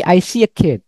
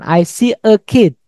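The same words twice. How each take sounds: First: The words are linked with a y glide. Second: The words are said separately, without a glide. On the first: The speaker calls it right. "tapi I see a kid. Disambung" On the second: The speaker calls it wrong. "Bukan I see a kid"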